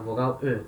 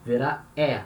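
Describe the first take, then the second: First: The E in "vogal E" as rounded "euh"; name the vowel E as a weak French "euh"; E fraco. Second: The E in "vira E" as an open "eh"; E aberto. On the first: ("E" fraco e arredondado, som de "eu" francês) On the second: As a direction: open the vowel E up to È. ("E" aberto, como em "pé") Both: Shown as a demonstration. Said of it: "ela muda de som".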